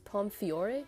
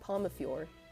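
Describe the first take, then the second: First: No vowel is heard between 'Pom' and 'fiore'. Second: An extra vowel is heard between 'Pom' and 'fiore'. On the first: This is how the English dub says it. "I think they pronounce it as Pomfiore" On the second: This copies the Japanese way of saying it. "I've just been saying Pomafiore"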